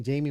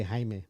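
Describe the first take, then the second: First: "Jamie" said the English way, JAY-mee; misreading "Jamie" as the English name, JAY-mee; wrong English Jamie. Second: "Jaime" said the Spanish way, HY-meh, with an h sound; correcting to "Jaime", HY-meh, Spanish style. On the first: Host misreads a chatter's name as "Jamie", JAY-mee. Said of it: "but it's actually Jaime". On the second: Host corrects himself to Spanish "Jaime", HY-meh. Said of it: "I'm saying Jamie". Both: Shown as a demonstration.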